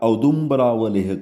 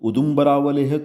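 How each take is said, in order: First: The word begins with an 'ow' vowel. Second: The word begins with a short 'oo' vowel. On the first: "या औदुम्बरावलेह करें" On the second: "चाहे वो आप pronounce उदुम्बरावलेह करें"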